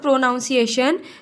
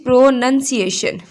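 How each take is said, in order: First: The second syllable sounds like 'nown'. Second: The second syllable sounds like 'nun'. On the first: The speaker calls it wrong. "Even this word is not" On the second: The speaker calls it right. "This word is"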